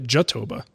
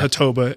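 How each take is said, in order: First: The word begins with a J sound. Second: The word begins with an H sound. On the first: "you've called it Jatoba to pronounce the J" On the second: "I call it Hatoba"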